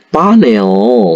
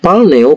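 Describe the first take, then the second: First: No L sound is heard before the n. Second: An L sound is heard before the n. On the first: The speaker calls it right. "tapi paneo" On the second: The speaker calls it wrong. "bukan palneo"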